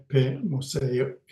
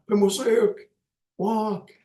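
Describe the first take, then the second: First: Said in the usual way. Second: High, ringing order to a group; commanding call. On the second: Shown as a demonstration. Teacher showing students how to command a group, ringing call. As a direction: call it out like giving the class an order. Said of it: "like that".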